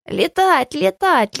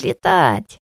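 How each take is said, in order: First: Chanted, squeal it like a giddy imp; excited chant. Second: Low gleeful shout. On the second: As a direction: drop down and bellow it. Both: A narrator's reading. Dwarf clapping, chanting.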